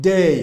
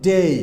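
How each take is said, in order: Both takes have the same delivery.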